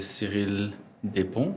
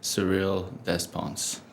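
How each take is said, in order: First: The name is said with French pronunciation. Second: The name is said with English pronunciation. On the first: "it's a French name, so you would say" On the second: "in English, most people would say"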